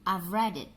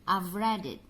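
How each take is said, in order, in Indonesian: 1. 'Have' disingkat menjadi bunyi v. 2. 'Have' disingkat menjadi bunyi v.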